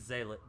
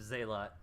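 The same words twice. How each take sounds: First: Zealot as ZAY-lit, reduced second syllable; zay-lit pronunciation. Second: Zealot as ZAY-lot, full "o" at the end; zay-lot pronunciation. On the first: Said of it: "or maybe it's". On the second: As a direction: say Zealot with a clear LOT ending. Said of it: "I'm pretty positive". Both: Shown as a demonstration.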